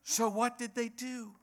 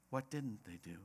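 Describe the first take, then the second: First: "So what did they do" in a high-pitched voice; wrong question posed. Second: Low, very soft "What didn't they do"; right question posed. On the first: Preacher posing the wrong question to congregation, high-pitched "do". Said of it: "That's the wrong question". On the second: Preacher giving congregation the right question, softly and low. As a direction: drop to a hushed, lower "didn't they do". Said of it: "The question is what". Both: Shown as a demonstration.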